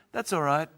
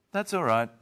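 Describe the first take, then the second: First: Pitched up; light upbeat reassurance; high, bright reply. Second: Said in the usual way. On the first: Shown as a demonstration. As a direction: say it lifting high. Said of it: "Or I could say". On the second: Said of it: "You try".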